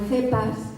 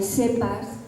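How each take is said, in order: First: The first sound is a th sound. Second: The first sound is an s sound. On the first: "en la mata no hay cepas" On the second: "hay sepas y sepos"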